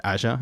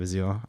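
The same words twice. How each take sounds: First: Azure said the way the listeners call it, AZH-er; others' pronunciation. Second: Azure in the speaker's own Australian way, az-YOOR; Australian pronunciation. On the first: Host quoting listeners' name for the cloud product, Azure as AZH-er. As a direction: say "Azure" as AZH-er, not the Australian way. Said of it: "you guys call it". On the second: Host owning up to a weird Australian accent, Azure as az-YOOR. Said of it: "just my weird Australian accent". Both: Shown as a demonstration.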